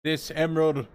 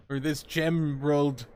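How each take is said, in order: First: Said in the usual way. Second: Gemerald, a hard j stuck onto emerald; gemerald with a j sound. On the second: Shown as a demonstration. Teasing the recap with a slow gemerald.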